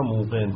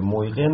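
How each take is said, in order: First: موقن with a long oo, no y; easy merged pronunciation. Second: مویقن with the y sounded before q; unmerged pronunciation. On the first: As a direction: glide straight through موقن on a long oo. (موقن با «او»ی کشیده، بدون «ی») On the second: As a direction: keep the y glide audible in مویقن. (مویقن با تلفظ «ی» ساکن) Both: Shown as a demonstration.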